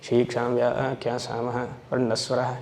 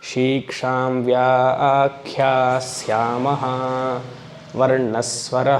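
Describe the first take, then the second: First: It is recited quickly with little weight on syllables. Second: It is recited slowly with full weight on syllables. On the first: This is how it is said when short of time. The speaker calls it wrong. "Time ಇಲ್ಲ ಅಂದರೆ ನಾವು ಹೀಗೆ ಹೇಳ್ಕೊಳ್ಳೋದು" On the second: This is how it should be recited. The speaker calls it right. "But ಹಾಗೆ ಹೇಳಬೇಕು"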